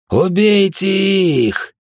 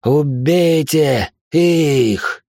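First: Slow, high, roaring order to kill; thunderous command. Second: Drawn-out roaring order; thunderous command. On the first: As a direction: bellow the order so the walls shake. (громовой приказ) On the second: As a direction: drag out a furious bellowed command. (протяжный громовой приказ) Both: A narrator's reading. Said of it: "от голоса, кажется, содрогнулись даже камни".

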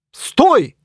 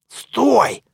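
First: Loud high stop; yelled stop. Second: High sharp stop call. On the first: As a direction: yell after him. Knight orders hero to stop. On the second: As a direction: catch him before he leaves. Mummy stops hero at gate. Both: Acted.

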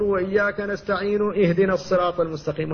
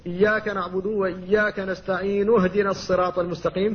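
First: اهدنا given a full hamza inside connected speech; mistaken kept hamza. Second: نستعين اهدنا joined with no hamza, nun with damma; hamza dropped in joining. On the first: Retold or imitated. Teacher imitates people who keep the hamza: mistaken glottal stop. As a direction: imitate the error, stopping hard on "اهدنا". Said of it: "بعض الناس ... فيقول". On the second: Shown as a demonstration. Teacher shows the correct connected reading: hamza dropped. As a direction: glide from "نستعين" straight into "اهدنا" without a glottal stop. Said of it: "فتقول".

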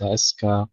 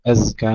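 First: أزكى with the ز turned into a hissed س; wrong zay as sin. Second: أزكى with a voiced, buzzing ز; correct zay. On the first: Teacher warns zay must not become sin, wrong. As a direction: say أزكى as أسكى, a wrong take. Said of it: "ألا تحول إلى سين". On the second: Teacher warns zay must not become sin, correct. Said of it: "ننتبه إلى الزاي الساكنة". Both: Shown as a demonstration.

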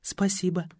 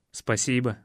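First: A polite soft thanks. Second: Tender thanks. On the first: Мотя вежливо отказывает продюсеру — тихое вежливое «спасибо». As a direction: decline Спасибо softly and courteously. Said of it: "вежливо ответила Мотя". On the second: Ваня благодарит собаку — нежное тихое «спасибо». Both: Acted.

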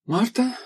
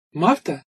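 First: Higher, rising call with mild exasperation; weary appeal, lifted at the end; sighing call. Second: Mildly hesitant call; tentative, understated summons; uncertain call. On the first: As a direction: call the ship with a touch of a sigh. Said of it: "со вздохом опять обратилась она к кораблю". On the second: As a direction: call out a little unsurely. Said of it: "неуверенно позвала девушка". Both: A narrator's reading.

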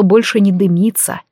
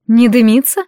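First: Said in the usual way. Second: "Не дымится?" with a rising, surprised lift on "дымится"; surprised question. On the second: Acted. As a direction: echo it back in disbelief. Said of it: "поглядела она на Балихана".

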